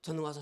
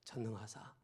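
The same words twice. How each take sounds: First: It is rattled off quickly. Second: It is said deliberately slowly.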